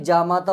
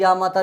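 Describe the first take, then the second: First: जा माता starting with "ja"; j sound. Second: या माता starting with "ya"; wrong y sound. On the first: Teacher giving the right word, जा माता with j. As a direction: say जा माता with j, not y. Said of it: "होता है". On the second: Teacher showing the mistake, या माता with y. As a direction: say या माता with y, not j. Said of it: "नहीं". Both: Shown as a demonstration.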